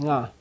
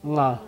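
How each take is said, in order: Both takes have the same delivery.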